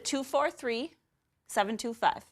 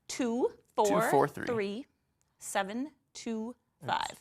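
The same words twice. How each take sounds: First: The number is said very quickly. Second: The number is said more slowly. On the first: The speaker calls it wrong. "I said that really fast" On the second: The speaker calls it right. "I have to slow down when I say it"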